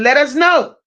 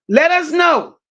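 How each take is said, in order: First: Said in the usual way. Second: Shouted, stressing us; calling out. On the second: Real, not acted. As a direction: call it out to the whole chat. Repeating it louder for chat.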